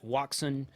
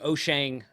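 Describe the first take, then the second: First: The name is said with an anglicized pronunciation. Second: The name is said with a Chinese-style pronunciation. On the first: This is how many English speakers say it. The speaker calls it wrong. "Some people call it" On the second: This is the original Chinese pronunciation. The speaker calls it right. "is the the correct Chinese way to pronounce it"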